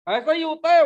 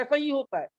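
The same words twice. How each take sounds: First: ऐसा ही होता है said again much louder; the preacher's louder, emphatic echo of ऐसा ही होता है; emphatic repeat. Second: Said in the usual way. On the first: Real, not acted. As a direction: hammer ऐसा ही होता है home to the congregation.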